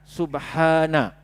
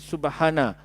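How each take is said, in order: First: The vowel after the h is held long. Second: The vowel after the h is cut short. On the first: The speaker calls it right. "Alif disebut mat lah ya. Jadi bacanya subha, dua harakat" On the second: The speaker calls it wrong. "Tapi kalau kita baca laju, kita buang mat tu"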